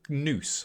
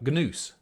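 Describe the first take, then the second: First: The word begins with an N sound. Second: The word begins with a hard G sound.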